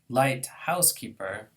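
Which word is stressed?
house. The main stress falls on house. A housekeeper who does not weigh much. "that might be a housekeeper who doesn't weigh very much"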